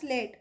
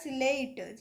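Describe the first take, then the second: First: The word begins directly with s and l together. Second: An extra vowel splits the opening s and l. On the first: The speaker calls it right. "यहाँ पर होगा आपका स्लेट" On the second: The speaker calls it wrong. "सिलेट नहीं बोलना है ना"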